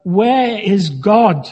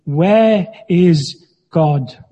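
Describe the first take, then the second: First: Slow, hammed-up booming bellow; mock bellow. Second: Slow, stern question from a booming man; stern minister. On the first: Minister bellowing at the boy, mock booming bellow. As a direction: boom it at the boy like a huge minister. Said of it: "raised his voice even more ... bellowed". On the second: Minister questioning a mischievous boy, slow and stern. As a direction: loom over the boy and demand it. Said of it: "said to him sternly". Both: A narrator's reading.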